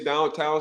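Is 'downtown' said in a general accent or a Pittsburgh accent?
general. It is said in a general American accent. The speaker calls it wrong. "don't say downtown"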